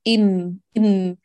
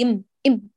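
First: The m continues with a light nasal hum. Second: The m is pressed hard and cut off. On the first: The speaker calls it right. "كملي من الخيشوم بغنة ناقصة" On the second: The speaker calls it wrong. "لا تقولي إم إم، لا تشدي هكذا على الشفتان"

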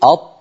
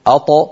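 First: The final consonant is held fully closed. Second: The final consonant is released with a bounce. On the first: "بدلا من أن يقولوا" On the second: "يقولون"

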